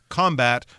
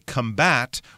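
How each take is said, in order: First: The stress is on the first syllable. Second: The stress is on the second syllable. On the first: It is used as a noun. "we put the stress on the first syllable" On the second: It is used as a verb. "when we use it as a verb"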